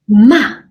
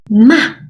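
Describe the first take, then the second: The two takes are said the same way.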